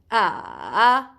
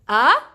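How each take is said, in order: First: The pitch dips down and then rises. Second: The pitch rises from low to high. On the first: "you go from down, from up to down to up" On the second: "you go from down and you go up with your voice"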